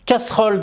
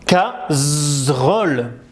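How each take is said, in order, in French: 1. La consonne du milieu est un s sifflant. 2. La consonne du milieu est un z sonore. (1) "le S n'a pas peur et il fait S" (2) "Si j'enlève un S ... il fait Z"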